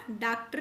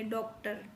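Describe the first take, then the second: First: डॉक्टर said as "daaktar"; wrong long A. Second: डॉक्टर said as "doktar", English-style O; rounded O vowel. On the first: Teacher showing what we won't say, डॉक्टर as "daaktar". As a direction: give the first vowel of डॉक्टर a plain AA. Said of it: "नहीं बोलेंगे". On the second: Teacher giving the correct reading, डॉक्टर with O. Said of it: "स्वर आएगा ओ का". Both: Shown as a demonstration.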